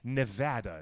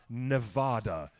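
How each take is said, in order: First: The middle vowel sounds like 'hat'. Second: The middle vowel sounds like 'father'. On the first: The speaker calls it right. "It rhymes with the word hat" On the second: The speaker calls it wrong. "it is not Nevada"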